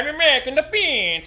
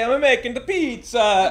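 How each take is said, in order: First: It is an evil Waluigi-like voice. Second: It is a plain, not evil Mario-like voice.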